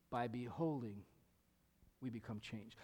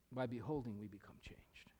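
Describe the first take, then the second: First: Said in the usual way. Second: Whispered and much softer, lower. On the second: Shown as a demonstration. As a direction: breathe the verse softly to let it sink in. Verse repeated softly.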